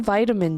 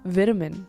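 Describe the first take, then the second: First: It is said with an American pronunciation. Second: It is said with a British pronunciation.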